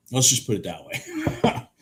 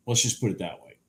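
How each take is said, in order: First: Laughing through the words. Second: Said in the usual way. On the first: Real, not acted. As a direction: chuckle while repeating it. Repeats line with a laugh.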